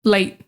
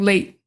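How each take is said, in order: The two takes are said the same way.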